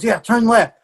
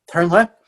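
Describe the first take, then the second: First: Higher-pitched, brisk retold instruction; higher quoted command, falling at the end; confident child's direction. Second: Said in the usual way. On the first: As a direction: imitate a sure little guide. Child giving directions in story.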